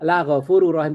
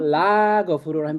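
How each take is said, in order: First: The vowel in the first word is short. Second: The vowel in the first word is long. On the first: He is truly forgiving. "la pendek itu namanya takkid" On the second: He is not forgiving. "itu tidak ghafur"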